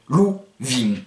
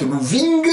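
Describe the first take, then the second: First: VING with a nasal ending, g left silent; G enlevé. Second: VING ending on an audible hard g; G d'entraînement. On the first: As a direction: stop VING on the nasal, drop the g. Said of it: "vous enlevez le G". (« ving » nasal, g final muet) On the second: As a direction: sound the g at the end of VING. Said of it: "Vous faites lou ving". (« ving » avec le g final prononcé) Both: Shown as a demonstration.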